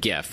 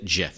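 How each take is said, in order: First: The word begins with a hard G sound. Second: The word begins with a soft J sound. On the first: "with a hard G" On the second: "Or is it a soft G?"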